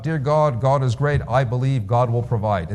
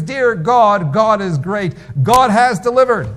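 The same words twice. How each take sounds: First: Said in the usual way. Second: Much higher, louder elated praise; rising, elated call to heaven; joyful cry to God. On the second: Retold or imitated. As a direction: cry it out in delight at the groceries. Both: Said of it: "he cries out".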